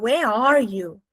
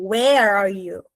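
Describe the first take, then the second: First: Slow, with the weight on "are" in "Where are you?"; stress on are. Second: "Where" punched, rest of the question light; stress on where. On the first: Teacher contrasting stress, now on "are". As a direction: draw out and press "are", not "Where". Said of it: "Tô botando onde tá você". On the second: Teacher showing students stress on "Where". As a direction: lean hard on "Where" in "Where are you?". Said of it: "tô botando muita força no onde". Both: Shown as a demonstration.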